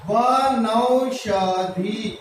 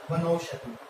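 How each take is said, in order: First: Slow drawn-out demo. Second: Said in the usual way. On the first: Shown as a demonstration. Teacher sounding out वनौषधि slowly for the students. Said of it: "ये लगाए औ की मात्रा". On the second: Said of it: "तो ये बन गया".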